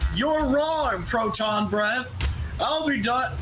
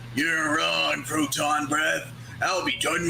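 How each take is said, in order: First: It is read in the speaker's ordinary voice. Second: It is read in a gruff put-on character voice.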